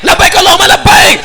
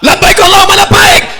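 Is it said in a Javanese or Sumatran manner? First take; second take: Sumatran; Sumatran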